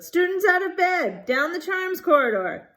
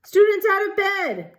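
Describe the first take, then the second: First: High, loud bellowing alarm. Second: High, loud bellowing poltergeist cry. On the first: Peeves calling Filch, high loud bellow. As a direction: shout it down the corridor. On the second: Peeves bellowing to alert Filch, high and loud. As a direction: bellow it to wake the castle. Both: A narrator's reading. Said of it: "Peeves bellowed".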